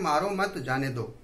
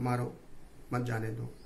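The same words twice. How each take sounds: First: There is a pause right after 'mat'. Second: There is a pause right after 'maaro'. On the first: Do not beat him, let him go. "यदि हम coma लगाएंगे मारो मत" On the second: Beat him, do not let him go. "थोड़ा पोज हमने किया coma लगाने के बाद, रुके हम वहां"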